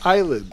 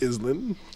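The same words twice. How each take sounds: First: The word is said with a silent S. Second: The word is said with an audible S. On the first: The speaker calls it right. "because the S" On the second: The speaker calls it wrong. "It's not island"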